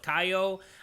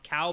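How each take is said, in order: First: The name is said as 'Kaio'. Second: The name is said as 'Cal'. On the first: The speaker calls it right. "but Kaio" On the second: The speaker calls it wrong. "not being pronounced Cal"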